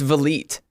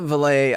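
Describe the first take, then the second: First: The final T sound is pronounced. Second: The final T sound is silent. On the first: The speaker calls it right. "You pronounce the T" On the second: The speaker calls it wrong. "It's not Valet"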